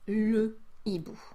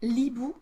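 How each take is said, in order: First: The article vowel is fully pronounced before it. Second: The article vowel is dropped and joined on. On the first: The speaker calls it right. "you need to say" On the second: The speaker calls it wrong. "You cannot say"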